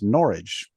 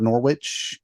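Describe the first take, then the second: First: The word rhymes with porridge. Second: The word does not rhyme with porridge. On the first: The speaker calls it right. "it's pronounced like it's porridge" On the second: The speaker calls it wrong. "it is not Norwich"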